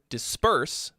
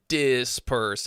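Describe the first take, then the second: First: The stress is on the second syllable. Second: The stress is on the first syllable. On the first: The speaker calls it right. "the stress is on the second syllable" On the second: The speaker calls it wrong. "you landed the dis on the one ... it forced that syllable to be, um, to be stressed"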